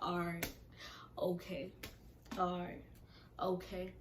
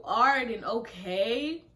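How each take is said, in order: First: Even, unbothered one-word replies; imitating someone who couldn't care less; nonchalant. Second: Loud, drawn-out, rising disbelief; slow, indignant retold echo; incredulous echo. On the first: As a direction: toss off each reply with no interest. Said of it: "every nonchalant response". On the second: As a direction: throw the words back as an outraged question. Throwing his replies back in disbelief.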